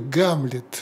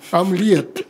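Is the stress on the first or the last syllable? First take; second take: first; last. First: Said the Russian way, stressed on the first syllable. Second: Said the French way, without g, stressed last.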